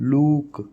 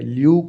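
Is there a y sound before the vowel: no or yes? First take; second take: no; yes. First: No y sound comes before the vowel. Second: A y sound comes before the vowel. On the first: The speaker calls it right. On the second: The speaker calls it wrong. "ल्यूक नहीं होता"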